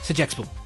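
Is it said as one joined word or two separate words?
one word. It is said joined as one word. The speaker calls it right. "It's like one word"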